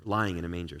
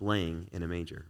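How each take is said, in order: First: "lying" said with a clear long i, then a falling close; the reading, corrected to "lying"; self-correction, firm on "lying"; corrected word. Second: Laying misread for lying; misread word. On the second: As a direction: says "laying" with a long ay, like laying down. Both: Real, not acted.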